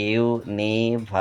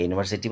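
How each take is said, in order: First: university broken into slow, separate syllables. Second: Said in the usual way. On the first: Shown as a demonstration. Teacher showing students the syllables in university, slowly split up. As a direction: sound out university one beat at a time.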